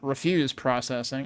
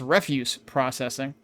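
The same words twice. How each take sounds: First: The stress is on the second syllable of refuse. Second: The stress is on the first syllable of refuse. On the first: It means declining to be processed. The speaker calls it wrong. "not refuse processing. I mean, I too refuse to be processed" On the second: It means processing garbage. The speaker calls it right. "I assume that's refuse processing"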